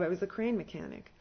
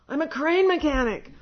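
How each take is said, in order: First: Said in the usual way. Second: "I'm a crane mechanic" said higher and much louder; loud protest. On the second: Retold or imitated. Retold plea to residents.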